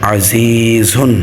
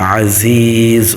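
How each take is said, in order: First: The word ends with a full -un sound. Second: The word ends cut short without -un. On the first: The reading continues past this word. "হা দুই পেশ ঝুন" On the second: The reader stops at the end of the verse. "আজিজ অক্ফ হবে"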